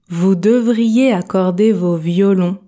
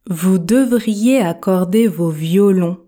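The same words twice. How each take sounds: Both takes have the same delivery.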